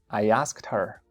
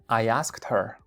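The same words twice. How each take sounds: The two takes are said the same way.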